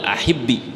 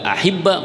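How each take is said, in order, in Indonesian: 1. Kata ini berakhir dengan vokal i pendek. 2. Kata ini berakhir dengan vokal a pendek. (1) "karena harokat asli pada dua bertemu dua huruf mati dikasroin" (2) "harokat paling ringan adalah kas fathah"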